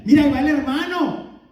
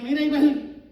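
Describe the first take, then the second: First: Fuerte y admirado, señalando con orgullo a un buen hermano; "Mira, ahí va el hermano" dicho fuerte, con admiración. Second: Burla ligera, como quien critica a un hipócrita; "Mira, ahí va el" dicho con sorna y desdén; con desprecio. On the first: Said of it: "Y no de una manera mala". (elogio fuerte y admirado) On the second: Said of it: "de una manera mala". (crítica burlona ligera) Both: Pretend.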